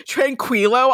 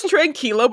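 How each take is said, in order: First: "tranquilo" with a KW sound, tran-KWEE-lo; imitated mispronunciation. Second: "tranquilo" with a K sound, tran-KEE-lo; standard Spanish pronunciation. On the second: Shown as a demonstration. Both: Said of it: "but he says tranquilo".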